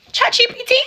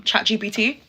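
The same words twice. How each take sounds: First: Much higher, louder incredulous squeak; mocking squeak. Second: Said in the usual way. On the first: Shown as a demonstration. Mocking the ex's line as written by a chatbot, squeaked high. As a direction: squeak it in mock disbelief. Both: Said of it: "Where did you get that line from?".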